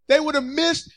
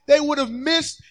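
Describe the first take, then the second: No difference in how they are said.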